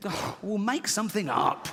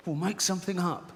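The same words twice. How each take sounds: First: Higher-pitched, exasperated outburst; exasperated father. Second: Higher-pitched, mildly exasperated quote; retold exasperated punchline. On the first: Acted. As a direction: burst out at the child, fed up. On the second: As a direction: replay the fed-up father's line.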